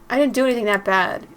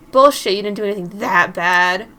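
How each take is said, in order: First: Mildly heated self-defence; defensive protest. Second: Loud scoff, throwing the words back; angry retort. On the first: Prankster defending the spook to angry friends, mildly defensive. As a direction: push back, a little defensive. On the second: Friend rejecting the prankster's excuse, loud and scornful. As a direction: fire it back loudly in disbelief. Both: Acted.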